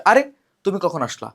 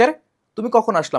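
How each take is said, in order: First: Said in the usual way. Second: Higher, louder, acting astonished; surprised. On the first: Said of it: "এটা হচ্ছে বিস্ময় আবেগ". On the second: Shown as a demonstration. Teacher acting out a surprised greeting for students, astonished. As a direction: exclaim it like you just saw someone appear. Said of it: "মানে অবাক হইছো যে".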